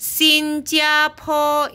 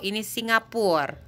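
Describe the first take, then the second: First: Slow high "Singapura" as "Xinjiapo"; Mandarin reading. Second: Said in the usual way. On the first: Shown as a demonstration. Teacher gives the Mandarin for "Singapura".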